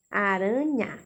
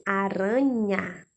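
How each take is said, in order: First: Said in the usual way. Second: Aranha stretched slowly, syllable by syllable; slow sounding out. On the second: Shown as a demonstration. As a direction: draw out Aranha for the children. (Aranha dita devagar, sílaba por sílaba)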